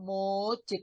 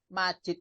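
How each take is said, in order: First: The first vowel is a rounded 'u' sound. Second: The first vowel is an open 'a' sound. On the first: The speaker calls it wrong. "kok mujid" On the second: The speaker calls it right. "keliru wong majid"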